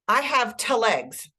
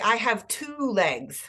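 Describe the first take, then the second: First: The word 'two' is reduced and unstressed. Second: The word 'two' is full and stressed. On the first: The speaker calls it wrong. "But I don't say" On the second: The speaker calls it right. "I have to stress the con that two is a content word"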